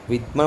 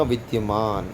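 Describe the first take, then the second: First: विद्यमान said as "vidmaan", without the y; विद्यमान with d straight into m; wrong pronunciation. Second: विद्यमान said as "vid-ya-maan"; विद्यमान drawn out with a full "dya"; correct pronunciation. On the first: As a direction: drop the y glide in विद्यमान. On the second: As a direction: sound the y after d in विद्यमान. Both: Shown as a demonstration. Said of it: "आपको शुद्ध पढ़ूंगा".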